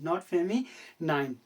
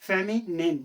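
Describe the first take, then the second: First: The last syllable rhymes with the word 'nine'. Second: The last syllable is short, like 'nin'. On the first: The speaker calls it wrong. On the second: The speaker calls it right.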